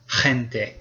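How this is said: It begins with a harsh throaty h sound. This sounds more European, as in Spain. "they really have a real strong h sound, like a vibration in the back of your throat"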